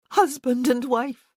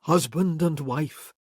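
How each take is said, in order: First: Higher, louder, fervent bride's voice; Isabel's vow. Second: Kerr repeating. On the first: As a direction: seal the vow with feeling. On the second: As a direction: savour the words back to her slowly. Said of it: "he repeated". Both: A narrator's reading.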